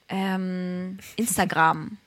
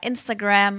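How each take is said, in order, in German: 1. Das Wort wird mit deutschen Lauten ausgesprochen. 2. Das Wort wird mit englischen Lauten ausgesprochen. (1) "manche sagen ja auch so ganz komisch auf Deutsch" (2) "verwenden wir sie ja meistens auf Englisch. Wir sagen Instagram"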